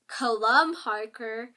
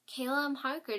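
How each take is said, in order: First: The name is said in a menacing way. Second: The name is said plainly, without threat. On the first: The speaker calls it right. "that sounds menacing, doesn't it?" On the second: The speaker calls it wrong. "doesn't sound menacing"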